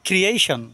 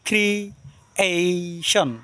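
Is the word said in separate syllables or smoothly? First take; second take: smooth; separate. First: The syllables are joined together smoothly. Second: The syllables are said separately, broken apart. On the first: "আর একসাথে মিলিয়ে পড়লে" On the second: "যদি ভেঙে ভেঙে পড়েন"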